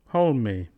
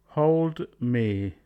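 First: The D sound at the end of hold is dropped. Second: The D sound at the end of hold is kept.

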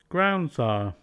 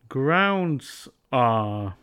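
First: The D is dropped and Z links forward. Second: The D sound is kept and words stay separate.

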